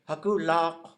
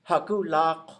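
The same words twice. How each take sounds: First: The middle consonant is a voiced L sound. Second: The middle consonant is a voiced L sound.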